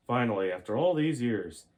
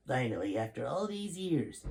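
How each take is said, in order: First: Wrong general voice. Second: General in awe. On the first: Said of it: "that's not his voice". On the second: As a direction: let the awe stretch the words out. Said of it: "began General Sheldon in awe". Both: Acted.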